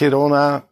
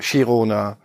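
First: It is pronounced the Spanish way. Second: It is pronounced the Catalan way.

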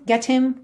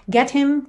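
Both takes have the same delivery.

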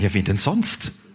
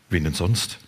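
First: It is said in a warm, friendly tone. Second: It is said in a grumpy, sullen tone.

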